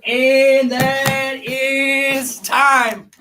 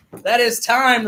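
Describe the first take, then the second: First: Higher, very slow ceremonial call of time; drawn-out time call. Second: Said in the usual way. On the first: Real, not acted. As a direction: stretch every word out like a ring announcer. Host calls end of countdown.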